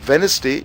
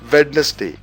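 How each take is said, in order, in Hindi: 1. बीच वाला d sound silent होता है। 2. बीच वाला d sound बोला जाता है। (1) "वेडनेसडे आप डी को साइलेंट करके बोलते हैं" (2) "नाउ वेडनेसडे इज रॉन्ग"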